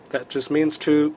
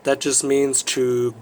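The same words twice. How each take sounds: The two takes are said the same way.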